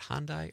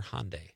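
First: Hyundai ending in "dye"; first pronunciation option. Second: Hyundai ending in "day"; second pronunciation option. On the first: Host asking co-host how the car is said, Hyundai as HAHN-dye. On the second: Host offering another way to say the car, Hyundai as HAHN-day. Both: Shown as a demonstration. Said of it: "how do you say that".

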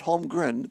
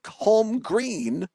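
First: "Holmgren" with a short e in the last syllable; mistaken name pronunciation. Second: "Holmgreen" with a long ee in the last syllable; careful name pronunciation. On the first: Host rules out the wrong name, "Holmgren" with short-e ending. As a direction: say "Holmgren" softly and briefly, ending "gren". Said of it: "not Holmgren". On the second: Host names the boat landing, stressing "Holmgreen" as "home-green". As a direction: draw out "Holmgreen", ending in a clear "green". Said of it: "not Holmgren, but the Mark Holmgreen". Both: Shown as a demonstration.

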